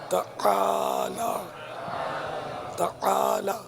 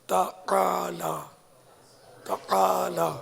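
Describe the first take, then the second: No difference in how they are said.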